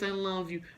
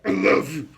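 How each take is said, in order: First: It sounds casual and indifferent, without feeling. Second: It sounds intense and full of anxious feeling.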